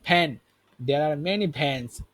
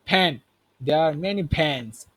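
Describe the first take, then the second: Both takes have the same delivery.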